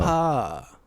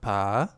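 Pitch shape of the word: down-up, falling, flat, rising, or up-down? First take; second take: up-down; down-up. First: The pitch rises and then falls. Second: The pitch dips down and then rises. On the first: "up and down" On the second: "sugar daddy is down and up"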